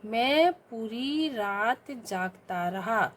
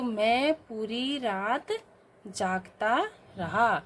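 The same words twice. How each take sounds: First: Very slow, word by word, for pupils to write down; slow dictation. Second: Very slow, every word spaced out for the class; slow dictation. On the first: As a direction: read it out slowly to the class. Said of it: "क्या होगा शुद्ध रूप". (धीमे-धीमे बोलकर लिखवाना) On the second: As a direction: dictate it slowly. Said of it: "तो". (धीमा श्रुतलेख) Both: Shown as a demonstration.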